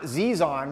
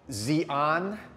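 First: The name sounds like 'Zizan'. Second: The name does not sound like 'Zizan'. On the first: The speaker calls it wrong. "not XI'AN, which is Z-I-Z-A-N" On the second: The speaker calls it right. "I'm gonna pronounce it XI'AN"

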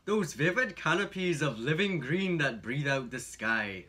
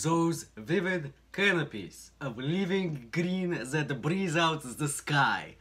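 First: It is read with an Irish accent. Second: It is read with a Russian accent.

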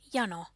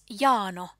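First: The A vowel is kept short. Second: The A vowel is held long. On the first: The speaker calls it right. "it is pronounced with a short A" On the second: The speaker calls it wrong. "with a long A"

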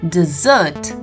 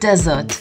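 First: The stress is on the second syllable. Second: The stress is on the first syllable. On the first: It names a sweet dish eaten after dinner. "The stress is upon the double S" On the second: It names a sandy place without rain. "Not a desert, which is a sandy place without any rain"

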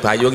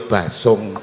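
First: The middle consonant is a y sound. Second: The middle consonant is an s sound. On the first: This is the usual way of saying it. "Muni bayung" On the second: This is how people from the local dialect area say it. "ya basung"

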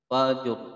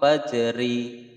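First: The word ends on a thick r, no vowel. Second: The word ends with an added i vowel. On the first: The speaker calls it right. "roknya ini dibaca tebal" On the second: The speaker calls it wrong. "tidak boleh wakof fajri, salah"

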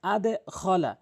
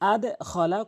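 No difference in how they are said.

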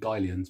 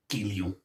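First: The name is said with an English accent. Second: The name is said with a French accent. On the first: This is the casual everyday household name. "in the house, we just call it Guillons" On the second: This is the proper French way to say it. "It also gives me a chance to do my French accent"

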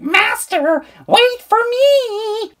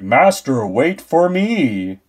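First: It is said in a silly, cute voice. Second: It is said in a deep, menacing voice.

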